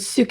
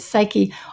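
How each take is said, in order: First: It is said the Greek way, like 'soo-keh'. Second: It is said the English way, like 'sigh-kee'. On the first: "a Greek and right way to do it" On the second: "because I think people recognize that word"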